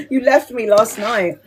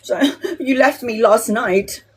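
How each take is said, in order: First: Mum's sulky whine, a changed voice; teasing imitation of a guilt-tripping mum; whiny mum. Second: Said in the usual way. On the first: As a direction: mimic a mother playing the victim. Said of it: "my mum was playing the victim". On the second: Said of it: "mum's complaint quoted twice".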